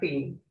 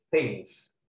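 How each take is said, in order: First: The vowel is a tense ee sound. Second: The vowel is a short lax i. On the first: The speaker calls it wrong. "bukan thing" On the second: The speaker calls it right. "Jadi ini dibaca things"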